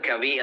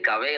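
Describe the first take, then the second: First: The name ends with an 'ee' vowel. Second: The name ends with an 'ay' vowel. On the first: "best option ഞാൻ പറയും" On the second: "നമ്മൾ ശരിക്കും കവെ എന്ന് വായിക്കണോ"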